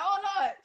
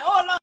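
First: Said in the usual way. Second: Laughing oh lord. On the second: Retold or imitated. Retelling her panic over phone.

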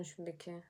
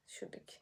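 First: Quiet repeat. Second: Whisper. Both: Real, not acted. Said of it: "Şuradaki lambayı görüyor musun?".

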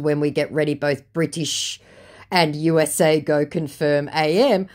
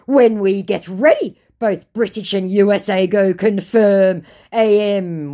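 First: Said in the usual way. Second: Mock scammer threat. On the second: Scammer threatening war on her, mock menacing. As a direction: declaim a muddled warning grandly.

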